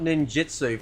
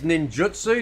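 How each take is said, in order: First: The middle syllable sounds like 'jit'. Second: The middle syllable sounds like 'jut'. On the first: The speaker calls it wrong. "not ninjitsu" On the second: The speaker calls it right. "it is ninjutsu"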